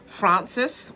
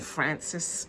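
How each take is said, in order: First: The name is said in a non-American way. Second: The name is said in an American way.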